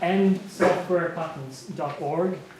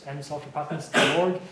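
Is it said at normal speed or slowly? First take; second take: slowly; normal speed. First: It is said slowly and clearly. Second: It is said at normal speed.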